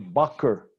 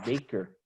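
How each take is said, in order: First: It is said with a German pronunciation. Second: It is said with an American pronunciation. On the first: "In Germany, they say" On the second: "In the United States, you say"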